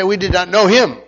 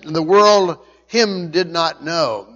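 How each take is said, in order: First: Said in the usual way. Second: "world" held slow and weighty up front; stress on world. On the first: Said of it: "we would say". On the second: Shown as a demonstration. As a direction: lean hard on "world", slow and deliberate. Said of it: "the word world is emphatic".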